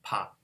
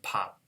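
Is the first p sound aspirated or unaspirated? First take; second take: aspirated; aspirated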